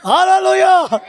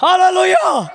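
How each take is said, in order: First: High, louder "hallelujah" with falling end; loud hallelujah. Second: High ringing shout of "hallelujah"; loud hallelujah. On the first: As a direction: shout it back again to the church. (బిగ్గరగా హల్లెలూయా) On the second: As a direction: call it out to the congregation. (గట్టిగా హల్లెలూయా) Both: Real, not acted. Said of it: "గట్టిగా హల్లెలూయా చెప్పండి".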